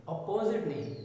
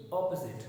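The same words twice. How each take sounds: First: अपोजिट with a long "o-po-zit"; wrong version. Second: अपोजिट as "op-uh-zit"; right अपोजिट; correct version. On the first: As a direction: show the mistaken अपोजिट. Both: Shown as a demonstration.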